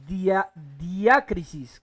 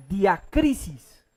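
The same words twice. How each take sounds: First: Diacrisis said slowly, restarting on Dia; trying the pronunciation. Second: Diacrisis sounded out slowly, syllable by syllable; careful pronunciation. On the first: Preacher unsure of a Greek word, slow retry. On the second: Preacher teaching the congregation a Greek word, slow and careful. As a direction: spell out Diacrisis slowly for the class. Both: Shown as a demonstration. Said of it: "creo que así se pronuncia".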